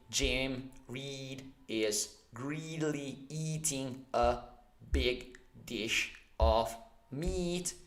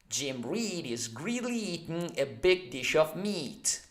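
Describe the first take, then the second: First: Each word is said separately and slowly. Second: The words are run together at speed. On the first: The speaker calls it wrong. "Instead of pronouncing uh, words one by one" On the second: The speaker calls it right. "faster than that"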